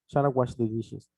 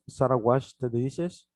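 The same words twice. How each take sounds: First: The ending of washed is soft and barely heard. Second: The ending of washed is strongly exaggerated. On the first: "en la práctica ya en una oración es ... es muy suave el sonido" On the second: "originalmente yo aquí los mencionaba muy exagerados"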